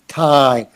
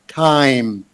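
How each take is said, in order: First: The vowel is said with a wide-open mouth. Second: The same.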